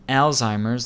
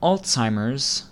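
First: The first syllable sounds like the name 'Al'. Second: The first syllable is 'all' followed by 'ts'. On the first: The speaker calls it wrong. "like the name Al" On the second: The speaker calls it right. "like the word all followed by the TZ sound"

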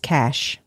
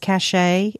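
First: The word is said with one syllable. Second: The word is said with two syllables. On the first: The speaker calls it right. "It's cash" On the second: The speaker calls it wrong. "I've always thought it was cachet. It's not"

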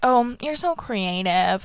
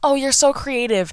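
First: It is said with low, flat energy. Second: It is said with normal, livelier energy.

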